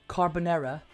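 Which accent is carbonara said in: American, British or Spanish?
British. It is said in a British accent. "in British, it would be carbonara"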